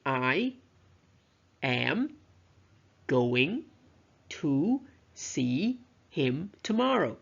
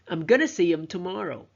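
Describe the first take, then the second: First: Each word is said fully and separately. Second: The words are reduced and run together. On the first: "a sentence in isolation" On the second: "a connected speech"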